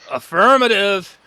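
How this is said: It is said in a wrestler's put-on voice.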